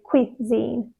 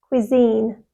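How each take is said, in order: First: The stress is on the first syllable. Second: The stress is on the second syllable. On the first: The speaker calls it wrong. "They put the stress on the first syllable and they soften the second one" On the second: The speaker calls it right. "the first syllable is quick and soft and the second syllable is stressed and long"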